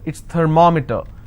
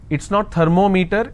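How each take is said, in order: First: The stress is on the second syllable. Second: The stress is on the third syllable. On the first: The speaker calls it right. "I will stress here, because meter itself has two syllables" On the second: The speaker calls it wrong.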